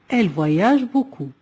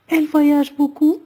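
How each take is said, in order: First: The voice falls at the end. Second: The voice rises at the end. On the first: It is a statement. "Deuxième phrase déclarative" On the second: It is a question. "on peut simplement changer l'intonation de la voix"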